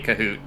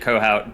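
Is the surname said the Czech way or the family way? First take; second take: Czech; family. First: The surname is said the Czech way. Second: The surname is said the family's way. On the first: This is how Czech speakers say the name. "the Czech people say Kahoot" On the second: This is how the relatives say the name. "My family says it Kohout"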